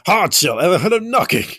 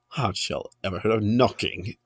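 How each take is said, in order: First: The line is said in a shout. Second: The line is said in a calm voice. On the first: The speaker calls it right. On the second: The speaker calls it wrong.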